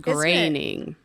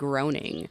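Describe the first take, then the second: First: The first vowel sounds like 'grain'. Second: The first vowel sounds like 'groan'. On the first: The speaker calls it right. "but it's graining" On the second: The speaker calls it wrong. "I always called him groaning"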